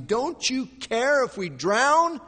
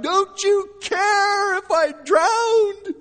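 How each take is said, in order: First: High, loud, drawn-out frightened question; frightened disciples. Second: Very high, drawn-out desperate yell; crying out. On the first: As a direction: plead loudly as a frightened disciple. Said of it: "who are becoming very frightened". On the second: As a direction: cry out at full force, slowly. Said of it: "And we cry out". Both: Acted.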